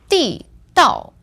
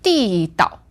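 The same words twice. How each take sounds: First: The second syllable has a falling fourth tone. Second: The second syllable has a light neutral tone. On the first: It means an underpass. "fourth tone, fourth tone" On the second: It means authentic or local. "So that's the fifth tone in the end"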